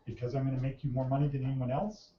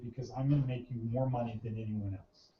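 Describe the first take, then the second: First: It is said hesitantly and unsurely. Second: It is said with confident conviction. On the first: The speaker is guessing at the expected answer. The speaker calls it wrong. "You don't say it like that. Because that makes it sound like you're what? Unsure" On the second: The speaker truly believes the claim. The speaker calls it right. "Like that. Like you believe it"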